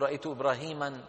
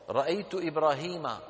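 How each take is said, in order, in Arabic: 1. ينتهي الاسم بإضافة التنوين -an. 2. ينتهي الاسم بحرف علّة واحد: a.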